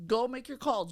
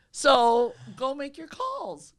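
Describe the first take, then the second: First: Said in the usual way. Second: "So go make your calls" loud and slow, each word hammered; slow down and punch "calls" hard; emphatic. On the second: Real, not acted. Host hammering home the advice to new agents, slow emphatic.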